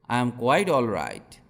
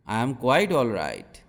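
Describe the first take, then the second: No difference in how they are said.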